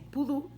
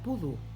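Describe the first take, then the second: First: The stress is on the second syllable. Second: The stress is on the first syllable. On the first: This is how the word really is, so it needs an accent mark. The speaker calls it right. "como es pudú, hay que cargarla con una tilde" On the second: This is how it would be read without the accent mark. The speaker calls it wrong. "si no diría pudú"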